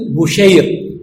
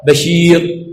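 First: بشير said "Bushayr", u after the b; damma on the ba. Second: بشير said "Bashir", a after the b, long i; fatha on the ba. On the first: Teacher showing students a name variant, damma reading "Bushayr". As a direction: say بشير as diminutive bu-SHAYR. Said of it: "إما بالفتح وإما بالضم". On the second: Teacher showing the other name variant, fatha reading "Bashir". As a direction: say بشير as ba-SHEER. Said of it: "إما بالفتح وإما بالضم للباء". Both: Shown as a demonstration.

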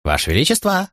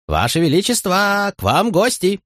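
First: High jester voice calling out; cheerful fool calling the king. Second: High, slow, drawn-out jester call. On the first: Fool calls the king awake. (высокий шутовской оклик) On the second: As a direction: call out to wake the king. Fool calls the king again. (протяжный высокий шутовской оклик) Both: Acted.

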